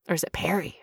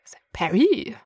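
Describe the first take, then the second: First: Said in the usual way. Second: Whispered French-accented peri; mock French accent. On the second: Shown as a demonstration. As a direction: breathe "peri" the French way, half-joking. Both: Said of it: "we went French for a second".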